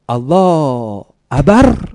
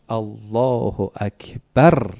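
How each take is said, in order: First: The k sound in akbar is missing. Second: The k sound in akbar is clearly said. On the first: A small child is still learning to say it. The speaker calls it wrong. "نتونست درست تلفظ کنه" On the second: The child has learned to say it. The speaker calls it right. "یاد گرفت"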